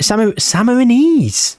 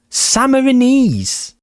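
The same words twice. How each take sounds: First: "Samar-, Samarinese" tried haltingly with a false start, pitched high; stumbling through "Samarinese" while reading it off the screen; first stab at Samarinese. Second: "Samarinese" drawn out slowly, pitched high, sa-ma-ri-NESE; Samarinese said properly. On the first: Reading a nationality off the screen, a halting first try. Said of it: "He says it underneath here". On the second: To viewers after learning the word, slow and deliberate. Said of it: "Well, I never would have got that". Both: Shown as a demonstration.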